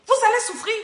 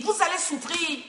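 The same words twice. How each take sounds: First: Louder, higher warning. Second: Said in the usual way. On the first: Real, not acted. Preacher repeats the warning, raised.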